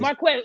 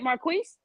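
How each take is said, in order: First: The last syllable sounds like 'kez'. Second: The last syllable sounds like 'keez'. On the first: The speaker calls it right. "forgive me, sir" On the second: The speaker calls it wrong. "Am I saying it right"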